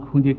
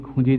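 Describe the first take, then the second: Both takes have the same delivery.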